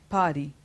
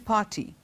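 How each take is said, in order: First: The middle consonant is a soft D-like sound. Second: The middle consonant is a clear T. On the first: This is the American pronunciation. "American English, party" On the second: This is the British pronunciation. "In British English, we say party"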